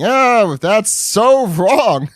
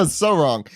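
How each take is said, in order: First: High, slow, laughing mock outrage. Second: Said in the usual way. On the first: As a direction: wail it out through laughter. Pleasure reacting to speech.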